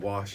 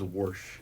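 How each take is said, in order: First: The word is said without an r sound. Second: The word is said with an r sound. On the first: "instead of "wash."" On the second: "so he says "warsh""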